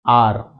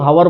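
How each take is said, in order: First: The word starts with a vowel, h silent. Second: The word starts with a pronounced h sound. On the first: The speaker calls it right. "जैसे हम इसको पढ़ते हैं" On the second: The speaker calls it wrong. "कुछ लोग हवर बोलते हैं, हवर बोलेंगे तो आंसर आपका गलत हो जाएगा"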